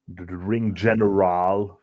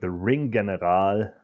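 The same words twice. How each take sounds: First: The G in General is a soft G. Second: The G in General is a hard G.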